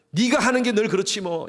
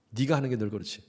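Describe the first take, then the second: First: Contemptuous jab. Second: Said in the usual way. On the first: Acted. Pastor quoting the worst words a spouse hears, sneering. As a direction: spit out 네가 with scorn, falling at the end.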